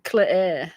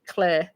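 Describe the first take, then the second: First: "Claire" broken into cluh-air; split into cl, air. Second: "Claire" as cl-air, no final R; cl plus air. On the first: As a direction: stretch "Claire" into two parts, cl and air. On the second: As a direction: say "Claire" as one syllable ending in air. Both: Shown as a demonstration. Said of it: "like you're going cl with air".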